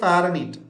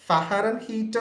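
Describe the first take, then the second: First: The word is said smoothly, in the usual way. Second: The word is broken into separate spelled-out parts. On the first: This is how the word is really pronounced. "നമ്മൾ pronounce ചെയ്യുന്നത് ഫാരനീറ്റ്" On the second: This is a memory aid for the spelling. "ഫഹരൻ ഹീറ്റ് എന്ന് തന്നെ നമ്മൾ നമ്മൾ pronounce ചെയ്യണം"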